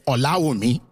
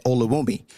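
First: Olawumi said the Yoruba way, a-law-EE-mee; Nigerian way. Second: Olawumi said with flat Canadian vowels, oh-la-WOO-mee. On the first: Debater showing the audience the right Nigerian Olawumi. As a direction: Olawumi in its proper Nigerian pronunciation. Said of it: "I was supposed to say". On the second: Debater showing the audience his old Canadian Olawumi. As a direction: Olawumi in a plain Canadian English reading. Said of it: "I used to say it with a Canadian accent". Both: Shown as a demonstration.

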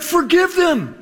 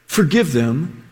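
First: "Forgive them" said higher and quick; forgiving. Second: Tender plea. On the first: Jesus answering his mockers, a higher, lighter voice. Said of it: "Jesus is like". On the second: Jesus on the cross asking the Father, tender. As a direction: plead gently, with a lower voice. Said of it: "He says". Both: Retold or imitated.

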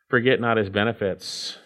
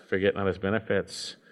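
First: Said in the usual way. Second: Softer, inward repeat of Forget not his benefits; a hushed reminder; quiet echo. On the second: Shown as a demonstration. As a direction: say it again softly to yourself. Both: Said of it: "repeated exhortation".

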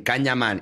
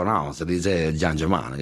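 First: "Can Yaman" read as written, with a hard K; mistaken pronunciation. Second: Low, slow, gentle imitated correction; heavenly smile. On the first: Retold or imitated. Retelling the TV host's mistake, "Can Yaman" with a hard K. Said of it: "hizo lo que tú, que es decir". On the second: The actor correcting the TV host, heavenly smile in the voice. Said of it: "con una sonrisa como bajada del cielo".

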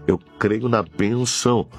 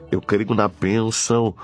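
No difference in how they are said.

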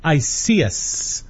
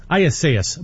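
First: Isias said as "eye-SEE-ess"; mistaken name pronunciation. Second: Isias said as "eye-ess-AY-ess"; carefully re-said Isias, with AY inside; corrected name pronunciation. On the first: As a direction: run Isias together, missing the AY sound. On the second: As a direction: give Isias an added AY syllable. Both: Real, not acted. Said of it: "my apologies".

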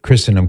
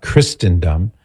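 First: Christendom with a silent T, Chrissen-dum. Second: Christendom with a sounded T, Christ-en-dum; T pronounced. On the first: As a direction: drop the T in Christendom. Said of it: "is pronounced Christendom". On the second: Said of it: "is pronounced Christendom, not". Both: Retold or imitated.

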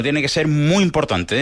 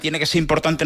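First: "muy" stretched out and stressed; slow down and lean hard on "muy". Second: Said in the usual way. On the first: Real, not acted. Corrects it, adding muy.

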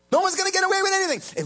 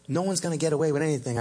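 First: "No one's gonna get away with anything" repeated much higher and louder. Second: Said in the usual way. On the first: Shown as a demonstration.

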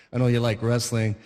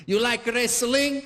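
First: Said in the usual way. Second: Put-on slow, high Italian-accented question; mock Italian immigrant dad; Italian father. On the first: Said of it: "if I would have said it like my Italian father". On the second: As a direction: ask it in a thick Italian accent. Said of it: "like my Italian father".

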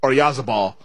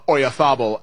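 First: Oyarzabal the English way, with a buzzing z. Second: Oyarzabal in Castilian fashion, z as th. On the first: Host contrasts the unwanted version, Oyarzabal with a hard z. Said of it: "as opposed to". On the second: Host hopes commentators say Oyarzabal with th. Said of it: "I'm hoping that they also go". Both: Shown as a demonstration.

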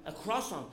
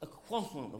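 First: Said in the usual way. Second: Croissant said kwa-son, mock French. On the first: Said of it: "that'd be no good". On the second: Shown as a demonstration. Comedian shows the audience croissant said kwa-son. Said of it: "the proper French way".

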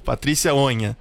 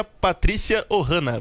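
First: "Onha" em duas sílabas, com som de nh; sobrenome corrigido. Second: "Ohana" em vez de Onha, com vogal a mais; sobrenome mal pronunciado. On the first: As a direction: repita "Onha" com nh, sem "a" no meio. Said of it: "Onha, perdão". (pronúncia corrigida de "Onha", duas sílabas) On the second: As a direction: diga "Ohana", em três sílabas, errando o sobrenome. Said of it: "não sei se eu consegui pronunciar direitinho". (pronúncia equivocada de "Ohana", com um "a" no meio) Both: Real, not acted.

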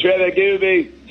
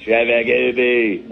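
First: Mock Aussie name call. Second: Said in the usual way. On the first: Shown as a demonstration.

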